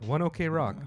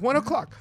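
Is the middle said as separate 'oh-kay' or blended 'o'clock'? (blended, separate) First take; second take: separate; blended. First: The middle is said as separate letters 'oh-kay'. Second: The words blend together to sound like 'o'clock'. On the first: The speaker calls it wrong. "I thought it was One OK Rock" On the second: The speaker calls it right. "It's 1 o'clock"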